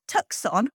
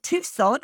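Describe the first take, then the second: First: Tucson said as TUCK-son; phonetic mispronunciation. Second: Said in the usual way. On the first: Shown as a demonstration. Host showing how the actor misread it, Tucson mispronounced as TUCK-son. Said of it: "thought Tucson was pronounced Tucson". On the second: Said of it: "He actually thought Tucson was pronounced".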